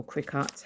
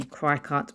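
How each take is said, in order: First: "Cricut" with a short i, like "cricket"; alternative pronunciation. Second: "cry cut" with first syllable rhyming with "cry"; alternative pronunciation. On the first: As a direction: say "Cricut" starting with "crick", not "cry". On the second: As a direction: say "cry cut" with a long i up front. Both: Shown as a demonstration. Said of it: "however you guys say it".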